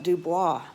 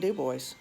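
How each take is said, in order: First: The name is said with a French pronunciation. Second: The name is said with a plain English pronunciation. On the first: This is how it is said in Louisiana. "for our Cajun French pronunciation" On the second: This is how it is said locally up there. "just plain Dubois"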